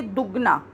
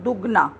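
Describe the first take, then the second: First: दुगना with a quick short u; दुगना, u said fast. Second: दुगना with a short quick u; दुगना, short vowel. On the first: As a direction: clip the u in दुगना. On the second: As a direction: snap through the u of दुगना. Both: Shown as a demonstration. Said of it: "हम उसको जल्दी से बोल जाते हैं".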